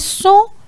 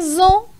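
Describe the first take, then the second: First: The word begins with a hissing s sound. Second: The word begins with a buzzing z sound. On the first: The speaker calls it right. "a palavra é som" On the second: The speaker calls it wrong. "S intervocálico tem som Z, mas a palavra não é zon"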